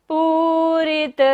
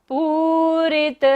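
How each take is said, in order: No difference in how they are said.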